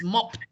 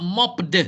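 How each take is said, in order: First: "mopped" ending in a crisp T, as "mopt"; T-sound ending. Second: "mopped" with a voiced D sound at the end; wrong D ending. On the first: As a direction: finish "mopped" on a voiceless t. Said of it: "It's pronounced with a T sound". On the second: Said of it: "it's not, it's not mopped". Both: Shown as a demonstration.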